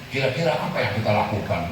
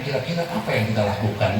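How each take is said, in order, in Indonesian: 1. Diucapkan dengan aksen baku yang rapi. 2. Diucapkan dengan aksen Betawi. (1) "bahasanya keren" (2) "Orang Betawi ngomongnya"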